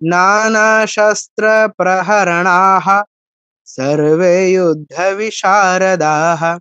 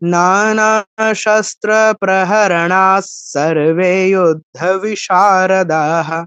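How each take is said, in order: First: It pauses after a breathy 'praharanah'. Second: It runs on with no pause, ending 'praharanas'. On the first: The line is read in two halves. "ভেঙে পড়তে চাইলে" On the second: The line is read as one unit. "একসাথে পড়লে"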